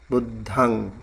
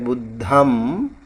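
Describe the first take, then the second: First: It ends with open lips on ng. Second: It ends with the lips closed on m. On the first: The speaker calls it right. "you don't have to close your lip. You have to open it" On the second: The speaker calls it wrong. "I heard him pronouncing like Buddham"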